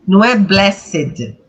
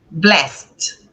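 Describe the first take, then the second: First: Blessed with an extra vowel, "bless-ed"; wrong pronunciation. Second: Blessed in one syllable, silent e, "blest"; correct pronunciation. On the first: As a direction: say blessed as two syllables, the wrong way. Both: Shown as a demonstration. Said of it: "isso aqui é mudo".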